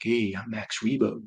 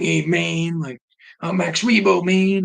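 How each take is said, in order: First: A softer, slower smooth Max Rebo; smooth talker. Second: High, loud jive-talking jazz cat; imitating a jazzy Max Rebo, higher and louder; seventies jazz guy. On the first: Retold or imitated. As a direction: ease it out like a lounge smoothie. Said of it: "like, a smooth talker". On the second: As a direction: ham up a hip seventies jazz man. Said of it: "like a seventies jazz".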